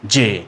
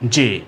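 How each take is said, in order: Both takes have the same delivery.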